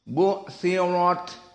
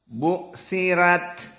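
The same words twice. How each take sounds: First: The r sounds heavy. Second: The r sounds light. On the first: This is the majority reading. "Dibaca dengan tafkhim ar-ra" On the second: This is the Warsh reading. "Adapun wars bitahqiq ra"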